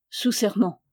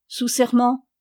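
First: "Sous serment" at usual pitch, falling; resigned answer. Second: "Sous serment" asked higher and louder; questioning demand. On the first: Captive knight swears to his cousin, "Sous serment" falling in submission. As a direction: let "Sous serment" fall as a plain answer. Captive gives the oath back. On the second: Captor demands an oath, "Sous serment" pressed as a louder question. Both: A narrator's reading.

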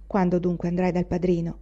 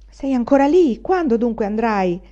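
First: Said in the usual way. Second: Loud, higher shout from the yard; old woman's impatient yell; calling out impatiently. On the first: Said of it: "chiese zia Tatana scotendolo". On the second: A narrator's reading. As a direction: call up to someone dawdling indoors. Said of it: "gridò la vecchia dal cortile".

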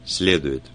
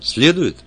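First: Said in the usual way. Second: «Следует?» jumps high and loud in disbelief; surprised. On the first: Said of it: "зазвучал шепелявый голос". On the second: A narrator's reading. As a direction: ask «Следует?» startled, voice leaping up. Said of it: "я этого не ожидал".

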